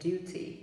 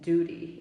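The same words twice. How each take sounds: First: It is said in a British accent. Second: It is said in an American accent. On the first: "duty in um, British English" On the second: "duty in American English"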